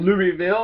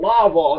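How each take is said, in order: First: The first part sounds like the name Louis. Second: The first part is a short 'Law' sound. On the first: "it's named after King Louis" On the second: "real dumb like Lawville"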